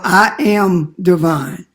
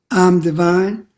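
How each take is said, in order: First: 'I am' is said as two full words. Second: 'I am' is contracted into one syllable. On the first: It is a bold statement of the self. The speaker calls it right. "a bold statement" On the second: It is a slothful, weakened mention of the self. The speaker calls it wrong. "a contraction of I am"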